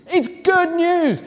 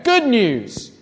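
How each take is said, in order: First: "good news" drawn out slowly and lifted high; "It's good news" said slow and high to drive it home; stress on good news. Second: Said in the usual way. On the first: Shown as a demonstration. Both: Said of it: "There you go".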